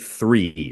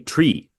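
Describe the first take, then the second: First: It starts with a th sound, American style. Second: It starts with a plain t, Irish style.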